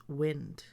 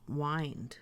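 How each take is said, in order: First: "wind" as in moving air; wind with short i. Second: "wind" with long i; wind as WYND. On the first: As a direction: say "wind" to rhyme with "pinned". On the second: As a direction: say "wind" to rhyme with "find". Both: Shown as a demonstration. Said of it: "I would pronounce this word as".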